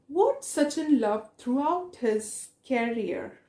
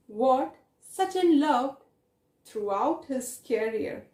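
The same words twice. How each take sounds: First: Said in the usual way. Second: What, Sachin loved, throughout his career, each chunk set apart by pauses; teacher repeating the question piece by piece. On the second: Shown as a demonstration. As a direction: break the question into three slow chunks so the class catches it. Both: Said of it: "repeats question slowly".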